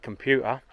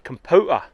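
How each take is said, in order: First: It is said in a standard accent. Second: It is said in an older Norfolk accent.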